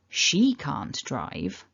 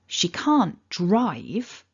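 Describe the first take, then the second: First: The stress falls on the word she. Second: The stress falls on the word drive. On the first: Someone else can drive. "stressing the she" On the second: She can do other things, like cycle. "If I stressed the word drive"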